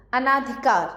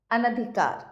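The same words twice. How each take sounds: First: अनाधिकार with a long "naa"; अनाधिकार said "a-NAA-dhi-kaar"; misspelt long vowel. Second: Said in the usual way. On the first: Shown as a demonstration. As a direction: stretch the second syllable of अनाधिकार. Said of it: "अशुद्ध शब्द लिखे हुए". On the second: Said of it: "सामने शुद्ध करके".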